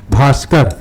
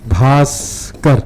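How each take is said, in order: First: Said in the usual way. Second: Bhaskar said very slowly, syllable by syllable; slow spelling read. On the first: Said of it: "शब्द पढ़कर दिखाना". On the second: Shown as a demonstration. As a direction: stretch out Bhaskar so every sound is clear. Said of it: "धीरे-धीरे वर्तनी पढ़ना". (भास्कर को बहुत धीरे-धीरे, एक-एक अक्षर बोलिए)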